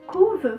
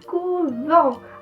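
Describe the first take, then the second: First: The stress does not fall on a final ending. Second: The stress falls on the final syllable. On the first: It is a verb in the third person plural. "Claro que vai ter exceção, ... a palavra couve, vai ser uma delas" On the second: It is the noun meaning convent. "a sílaba mais forte vai ficar lá no final. Então por isso eu digo couvent"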